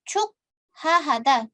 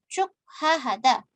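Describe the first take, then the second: No difference in how they are said.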